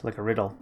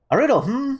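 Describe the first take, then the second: First: Said in the usual way. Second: Much higher, pondering hmm; curious riddle. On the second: Acted. Partner mulling over the riddle, curious and much higher. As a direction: toss it up high like a puzzled bird.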